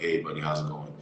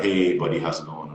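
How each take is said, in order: First: Softer, subdued phone greeting; low energy. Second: Said in the usual way. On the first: Retold or imitated. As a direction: greet him with the energy drained out. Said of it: "very low, en-, low energy on the phone". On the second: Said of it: "and they're like".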